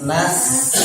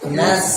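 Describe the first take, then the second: First: The s is said with air clearly escaping. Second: The s is said without audible breath escaping. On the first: The speaker calls it right. "dia hams hams nas udaranya keluar" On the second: The speaker calls it wrong.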